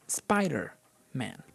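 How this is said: The stress falls on the first word, Spider. The speaker calls it right. "we say Spider-Man"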